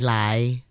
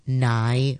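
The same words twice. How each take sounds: First: The word begins with an L sound. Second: The word begins with an N sound. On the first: The speaker calls it wrong. "we're quite lazy, we say" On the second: The speaker calls it right. "the correct pronunciation for it is an N sound"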